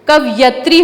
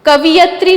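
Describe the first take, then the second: First: कवयत्री said as kav-yatri, no extra i; the right way: कवयत्री; correct pronunciation. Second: कवियत्री with an extra i, raised and stressed; teacher shows the wrong कवियत्री; wrong pronunciation. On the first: Teacher gives students the correct form, clearly. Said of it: "कवयत्री होता है". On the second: Teacher shows students the wrong form, stressed. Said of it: "कवियत्री नहीं होता है". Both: Shown as a demonstration.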